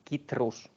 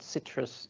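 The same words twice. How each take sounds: First: The word begins with a K sound. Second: The word begins with an S sound. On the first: The speaker calls it right. "it's citrus" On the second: The speaker calls it wrong. "this fruit is not citrus"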